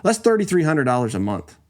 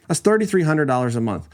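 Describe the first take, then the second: No difference in how they are said.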